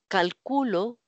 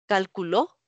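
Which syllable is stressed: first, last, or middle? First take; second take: middle; last. First: The stress is on the middle syllable. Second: The stress is on the last syllable. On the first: "palabra grave" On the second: "palabra aguda"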